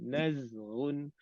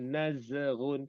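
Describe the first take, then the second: First: The z sound before gh is clear. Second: The z sound before gh is blurred. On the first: The speaker calls it right. "Bila tersukun nak kena jelaskan zain sini" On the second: The speaker calls it wrong. "Jangan nazghun, tak boleh"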